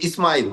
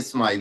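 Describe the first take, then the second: First: An extra i vowel comes before the s. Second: The word starts directly with the s sound. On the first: The speaker calls it wrong. "ये इस्माइल नहीं" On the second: The speaker calls it right. "इस्माइल होती है"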